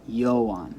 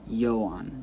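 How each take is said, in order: First: The stress is on the first syllable. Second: The same.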